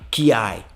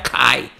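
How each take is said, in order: First: A 'y' glide comes between k and vowel. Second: The k joins the vowel with no glide. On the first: The speaker calls it wrong. "Não é kiai" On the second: The speaker calls it right. "Vai ficar kai"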